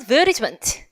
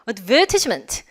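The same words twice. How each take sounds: First: It is said with an American pronunciation. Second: It is said with a British pronunciation.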